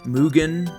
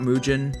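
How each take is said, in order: First: It is said the Japanese way. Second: It is said in an anglicized way. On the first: The speaker calls it right. "everybody has told me that it's Mugen" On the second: The speaker calls it wrong. "not Mugen"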